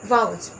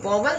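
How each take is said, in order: First: The first vowel sounds like 'ow'. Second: The first vowel sounds like 'aw'. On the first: The speaker calls it right. "ये है वाउल्स" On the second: The speaker calls it wrong. "ये word वॉवल नहीं होता है"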